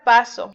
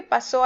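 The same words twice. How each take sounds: First: Paso stressed PA-so; PA-so, weight on the first syllable. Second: Pasó stressed pa-SÓ; pa-SÓ, past-tense stress; stress on last syllable. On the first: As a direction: say paso with a light final o. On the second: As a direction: lean on the final ó of pasó. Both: Shown as a demonstration. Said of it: "Cuando lleva acento".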